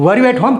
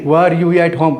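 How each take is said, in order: First: It is said with a questioning tune. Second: It is said with a statement tune. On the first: It asks something. The speaker calls it right. "ऐसे बोलेंगे" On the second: It sounds like an answer being given. The speaker calls it wrong. "ऐसे wrong हो जाएगा। लग रहा है affirmative उत्तर दे रहे हैं।"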